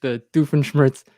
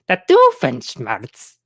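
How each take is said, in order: First: Said in the usual way. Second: "The Doofenshmirtz" drawn out slowly in a light mock Doofenshmirtz accent. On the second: Shown as a demonstration. Streamer asking chat if his Doofenshmirtz accent works, slow and mock. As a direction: stretch "The Doofenshmirtz" slowly in a half-hearted Doofenshmirtz accent. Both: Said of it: "Let me know if I'm doing this, the accent".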